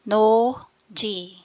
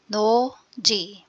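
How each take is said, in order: No difference in how they are said.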